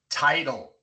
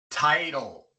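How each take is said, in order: Both takes have the same delivery.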